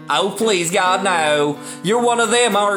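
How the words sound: It is spoken in a Southern American accent. "I could do a South accent if you want"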